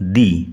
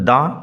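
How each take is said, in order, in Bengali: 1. স্বরধ্বনিটি একটি 'ee' ধ্বনি। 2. স্বরধ্বনিটি একটি হ্রস্ব 'uh' ধ্বনি। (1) "যদি ভয়েল দিয়ে শুরু হয় তাহলে দি এর উচ্চারণ হবে দি" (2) "যদি কনসোনেন্ট দিয়ে শুরু হয় তাহলে দি এর উচ্চারণ হবে দা"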